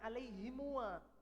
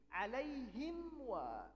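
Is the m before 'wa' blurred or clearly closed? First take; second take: blurred; clearly closed. First: The m is blurred into the following wa. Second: The m is closed clearly before wa. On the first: The speaker calls it wrong. "bukan alaihimwa. Alaihimwa malas" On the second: The speaker calls it right. "Jadi alaihim wa"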